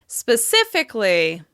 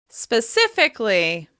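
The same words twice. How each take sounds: Both takes have the same delivery.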